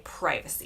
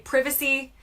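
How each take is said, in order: First: It is said with an American pronunciation. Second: It is said with a British pronunciation. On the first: "In the U S, we say privacy" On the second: "they say privacy"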